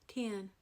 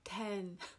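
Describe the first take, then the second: First: The vowel is raised, sounding like 'tin'. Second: The vowel is open, as in 'bet'. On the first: "I ain't talking about that metal can" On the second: "people outside this area might try to tell you it's pronounced ten"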